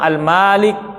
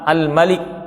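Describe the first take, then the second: First: The vowel after the m is long. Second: The vowel after the m is short.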